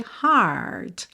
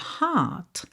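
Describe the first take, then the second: First: American accent with a curled R. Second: British accent: long vowel, no curled R.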